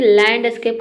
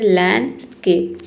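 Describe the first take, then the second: First: लैंडस्केप with a clear D, "land-uh-scape"; D sounded. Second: लैंडस्केप with no D, "lan-scape"; silent D. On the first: Retold or imitated. Teacher imitates how students read, लैंडस्केप with sounded D. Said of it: "student पढ़ते हैं". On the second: Shown as a demonstration. Teacher corrects the students, लैंडस्केप with silent D. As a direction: drop the D in लैंडस्केप. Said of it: "होता है".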